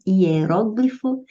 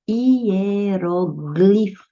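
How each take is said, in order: First: Hieróglifo stressed on ró, said slowly; proparoxytone. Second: Hieroglifo stressed on gli; paroxytone. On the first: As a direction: say hieróglifo as hie-RÓ-gli-fo. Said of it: "Você pode escrever hieróglifo com acento". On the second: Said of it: "você pode escrever também hieroglifo". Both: Shown as a demonstration.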